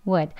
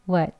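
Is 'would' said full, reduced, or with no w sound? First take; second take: reduced; reduced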